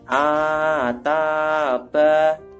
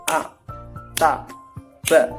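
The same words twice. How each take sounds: First: Each syllable is drawn out long. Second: Each syllable is short, one beat each. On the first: The speaker calls it wrong. "bukan seperti itu" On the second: The speaker calls it right. "satu harokat itu disamakan satu ketukan"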